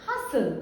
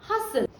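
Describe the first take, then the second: Both takes have the same delivery.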